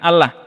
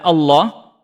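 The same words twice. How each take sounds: First: The 'a' vowel is thin and light. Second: The 'a' vowel is thick and heavy. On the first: The speaker calls it wrong. "kalau orang tidak mengerti akan dibaca dengan ... sama dengan A yang tipis" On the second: The speaker calls it right. "yang seharusnya itu dibaca"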